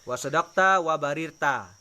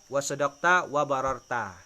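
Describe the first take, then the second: First: The second word has an i vowel after bar. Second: The second word has an a vowel after bar. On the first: "wabarirta boleh" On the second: "wabararta juga boleh"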